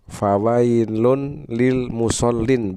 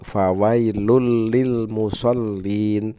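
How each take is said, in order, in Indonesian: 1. Bunyi n diucapkan sebelum l. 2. Bunyi n melebur ke l yang mengikutinya. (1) "begitu tulisannya" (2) "tetapi dibacanya menjadi"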